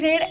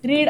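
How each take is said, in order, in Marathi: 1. स्वर 'bed' मधल्या स्वरासारखा वाटतो. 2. स्वर 'need' मधल्या स्वरासारखा वाटतो. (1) "भूतकाळ वापरत असताना स्पेलिंग सेम आहे मात्र उच्चार वेगळा आहे" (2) "सिंपल प्रेझेंट टेन्स मध्ये वापरलं तर आपण रीड असा उच्चार करतो"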